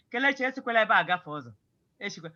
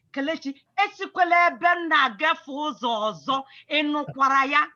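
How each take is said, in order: First: Fast, offhand warning with no weight on "esikwela"; casual warning. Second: Firm, weighty warning with stress on "esikwela"; serious warning. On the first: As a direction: toss it off quickly, not meaning it. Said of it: "it is not a serious warning". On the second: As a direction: warn Kelechi like you mean it, hitting "esikwela". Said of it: "give Chinemerem a serious warning". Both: Shown as a demonstration.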